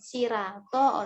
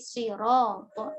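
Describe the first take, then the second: First: The r is pronounced thin and light. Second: The r is pronounced thick and heavy. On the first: The speaker calls it wrong. "bukan sirato oleh waras" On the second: The speaker calls it right. "tetap tebal"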